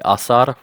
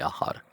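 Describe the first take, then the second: First: The middle consonant is an s sound. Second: The middle consonant is a light h sound. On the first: The speaker calls it wrong. "we don't say asar" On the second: The speaker calls it right. "that c changes to a light h"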